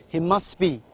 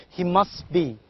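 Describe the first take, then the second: The two takes are said the same way.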